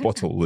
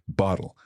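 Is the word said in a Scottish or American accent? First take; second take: Scottish; American. First: It is said in a Scottish English accent. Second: It is said in an American accent.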